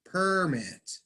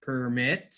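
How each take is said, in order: First: PER-mit, high first syllable, falling away; noun stress. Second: Per-MIT, rising onto the second syllable; verb stress. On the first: Teacher reading the noun from a list, first-syllable stress. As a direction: say permit as a noun, weight up front. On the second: Teacher reading the verb from a list, second-syllable stress. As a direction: say permit as a verb, weight on the end. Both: Shown as a demonstration.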